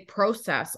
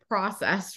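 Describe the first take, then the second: First: It is said with a Canadian pronunciation. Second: It is said with an American pronunciation. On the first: "I would say process all the time and people would look at me and they would say, like, where's your accent from?" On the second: "In America, we say process"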